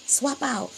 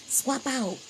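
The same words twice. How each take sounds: The two takes are said the same way.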